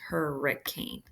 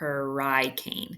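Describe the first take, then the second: First: The middle syllable has a short vowel. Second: The middle syllable has a long vowel. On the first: The speaker calls it right. "it makes a short sound there" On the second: The speaker calls it wrong. "we don't say hurricane"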